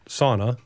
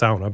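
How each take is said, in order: First: The first vowel sounds like 'aw'. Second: The first vowel sounds like 'ow'. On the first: This is the American pronunciation. The speaker calls it wrong. "Americans pronounce it sauna" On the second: This is the Finnish pronunciation. The speaker calls it right. "A U is always pronounced ow"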